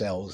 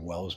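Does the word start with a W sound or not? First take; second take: no W; W sound. First: The word starts without a W sound. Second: The word starts with a W sound. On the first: The speaker calls it right. "but it's Ells, actually, how you're supposed to pronounce it" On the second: The speaker calls it wrong. "sometimes I'll say Wells"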